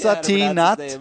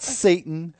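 First: It is said like the fabric satin. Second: It is said like the word Satan. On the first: The speaker calls it right. "Satin, not Satan" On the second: The speaker calls it wrong. "not Satan"

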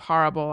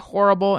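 First: It is said in a standard, non-regional accent. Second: It is said in the speaker's regional accent. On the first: This is the usual way in the new city. "instead of horrible" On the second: The speaker kept a home-region way of saying it. "I continued to say horrible"

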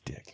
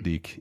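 First: The vowel is short, like 'dick'. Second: The vowel is long, like 'deek'. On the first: The speaker calls it right. "It is Dick" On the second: The speaker calls it wrong. "I don't pronounce it Deke"

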